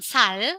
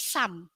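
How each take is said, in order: First: The word ends with an l sound. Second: The word ends with an m sound. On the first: The speaker calls it wrong. "bukan sal" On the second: The speaker calls it right. "tapi sam"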